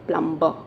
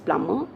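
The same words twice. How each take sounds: First: The b is sounded in the middle. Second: The b is silent in the middle. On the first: The speaker calls it wrong. "and not plumber" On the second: The speaker calls it right. "you have to pronounce as plumber"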